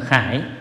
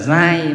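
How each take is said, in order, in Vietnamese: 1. Từ này bắt đầu bằng âm 'kh' bật hơi. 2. Từ này bắt đầu bằng âm 'gi' nhẹ. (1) "một âm là khải. Nhưng ở đây chúng ta đọc là khải" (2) "một âm là giai"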